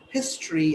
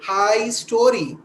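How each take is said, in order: First: It is said as one natural word. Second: It is split into 'high' plus 'story'. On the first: The speaker calls it right. "but it's actually" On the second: The speaker calls it wrong. "she will again say high story"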